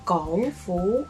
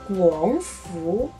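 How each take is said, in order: First: The first syllable starts with a plain g sound. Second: The first syllable starts with a rounded gw sound. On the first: It means the Hong Kong government. "Gongfu is the Hong Kong government" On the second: It means the government of Guangzhou. "Guangfu is the government of Guangzhou"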